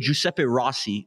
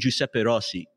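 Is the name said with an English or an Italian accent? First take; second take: English; Italian. First: The name is said with an English accent. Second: The name is said with an Italian accent. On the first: This is how most people say it. "people say Giuseppe Rossi" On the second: This is how people with Italian backgrounds say it. "but we say Giuseppe Rossi"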